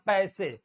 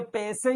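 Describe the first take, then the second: First: पैसे said as "pa-ese"; correct double vowel. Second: पैसे said as "pese"; a pure "e" in पैसे; पैसे without any "a" glide; wrong single vowel. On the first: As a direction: glide पैसे from "a" to "e". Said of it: "ये होता है पैसे". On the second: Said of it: "ये गलत लिखा है". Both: Shown as a demonstration.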